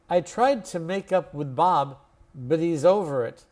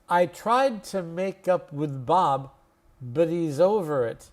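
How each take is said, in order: First: The sentence is spoken at normal conversational speed. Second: The sentence is spoken slowly but a bit quicker. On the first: "then I'll say it to normal speed" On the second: "slowly, but just a little faster than the first time"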